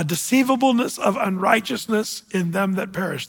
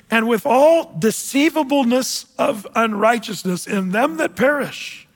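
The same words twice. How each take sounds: First: Said in the usual way. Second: Slow, solemn Bible reading; measured pulpit reading voice; scripture reading. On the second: Acted. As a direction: read each phrase slowly, like a verse from the pulpit.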